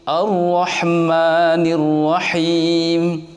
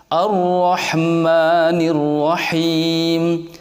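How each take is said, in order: Both takes have the same delivery.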